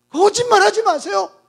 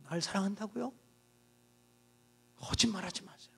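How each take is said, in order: First: Louder, rising accusation; bitter raised denial; sharp retort. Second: Bitter hushed denial; muttered retort. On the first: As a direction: fling it at him. Woman's retort repeated aloud. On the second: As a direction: lower and much softer, almost to herself. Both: Acted.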